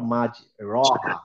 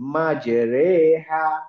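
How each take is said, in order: First: The vowel after r sounds like a. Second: The vowel after r sounds like e. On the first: The speaker calls it wrong. "Not" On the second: The speaker calls it right. "মাঝামাঝি একটা জায়গায় অনেকটা এ এর মতো উচ্চারণ"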